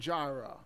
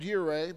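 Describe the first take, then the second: First: The name begins with a J sound. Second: The name begins with a Y sound.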